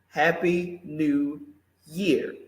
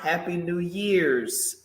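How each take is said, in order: First: The last word ends without an s sound. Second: The last word ends with an s sound. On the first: The speaker calls it right. "because we're talking about one year" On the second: The speaker calls it wrong. "do not put an S after New Year. It is not Happy New Year's"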